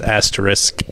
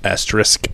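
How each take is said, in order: First: The s before the final k is pronounced. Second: The s before the final k is pronounced.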